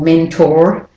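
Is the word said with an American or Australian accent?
American. It is said in an American accent.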